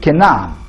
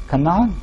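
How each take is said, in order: First: Canaan said as KEH-nan, falling and settled; corrected pronunciation. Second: Canaan said as KA-nan, with a questioning rise; a tentative KA-nan checked with the audience; unsure pronunciation. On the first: Author repeats the audience's correction, corrected. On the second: Author asks the audience how to say it, unsure. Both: Real, not acted.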